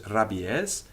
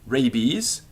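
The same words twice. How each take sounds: First: It is said with Latin pronunciation. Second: It is said with English pronunciation.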